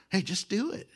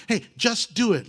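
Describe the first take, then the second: First: A quieter second "Hey, just do it" that rises at the end; hushed, tempting nudge; soft urging, much quieter. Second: Egging on. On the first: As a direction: coax him under your breath. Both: Retold or imitated. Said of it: "like the Nike commercial".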